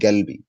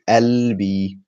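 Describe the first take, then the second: First: It starts with a hard g sound. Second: It starts with a glottal catch, no consonant. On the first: This is the far southern form. "with a g sound" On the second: This is the Egyptian form. "In Egyptian Arabic, we would say"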